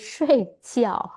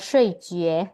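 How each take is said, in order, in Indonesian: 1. Suku kata kedua dilafalkan jiao. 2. Suku kata kedua dilafalkan jue. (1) "tapi shui jiao harusnya" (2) "bukan shui jue"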